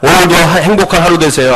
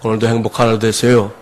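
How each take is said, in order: First: It is said cheerfully, with a smile. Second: It is said flatly, without a smile.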